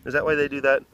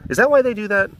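First: Said in the usual way. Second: First take much higher, curious; high questioning. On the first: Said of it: "repeat of question". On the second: Shown as a demonstration. Asking the animals, high and curious. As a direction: ask it up high, wondering. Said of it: "repeats question, first take high".

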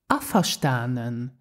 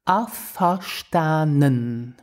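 First: Said in the usual way. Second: "Afverstanden." stretched slowly, every syllable clear; slow practice. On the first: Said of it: "And more naturally". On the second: Shown as a demonstration. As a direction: drag out "Afverstanden." for learners. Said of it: "Let's repeat to practice the pronunciation".

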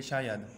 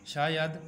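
First: Said in the usual way. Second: Teacher's emphatic word call. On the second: Shown as a demonstration. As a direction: announce शायद clearly to the class.

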